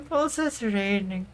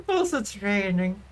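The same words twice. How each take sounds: The two takes are said the same way.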